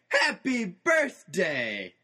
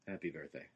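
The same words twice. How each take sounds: First: It is said excitedly, with lively energy. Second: It is said flatly, with no energy.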